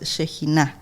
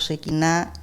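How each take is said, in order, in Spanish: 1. La consonante del medio es una J gutural. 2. La consonante del medio no es una J gutural. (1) "es Shekinah con, con J" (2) "está muy mal pronunciado"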